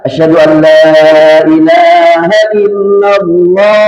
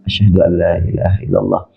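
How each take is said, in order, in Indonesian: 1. Frasa itu diucapkan keras dan penuh. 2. Frasa itu diucapkan pelan dan lembut. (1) "Baru keras" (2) "dia membaca pelan dulu"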